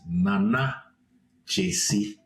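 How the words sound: The name is said with an African pronunciation. "the African pronunciation is"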